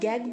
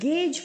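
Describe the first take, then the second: First: It starts with g and ends with g. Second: It starts with g and ends with j. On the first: The speaker calls it wrong. "ना तो हम गैग बोलेंगे" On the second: The speaker calls it right. "इसको हम गेज बोलेंगे"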